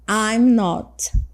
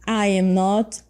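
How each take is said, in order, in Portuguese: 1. As duas primeiras palavras se unem em uma única sílaba. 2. Cada palavra é dita separadamente, sem contração. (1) "Vamos ver a forma contraída" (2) "Isso é a forma completa"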